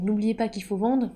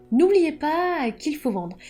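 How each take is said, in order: First: Said in the usual way. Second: Slow, louder, with weight on "N'oubliez"; emphatic advice. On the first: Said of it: "ce conseil". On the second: Shown as a demonstration. Author drilling aspiring writers on selling, slow and emphatic. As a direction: land "N'oubliez pas qu'il faut vendre" slowly, stressing "N'oubliez". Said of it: "ce conseil, n'oubliez pas qu'il faut vendre".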